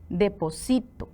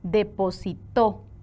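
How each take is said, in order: First: The stress is on the third syllable, si. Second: The stress is on the last syllable, to. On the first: I deposit, in the present. "vean dónde lleva la sílaba tónica, en sí" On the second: Someone deposited, in the past. "Según la sílaba tónica, la palabra va a adquirir un significado diferente"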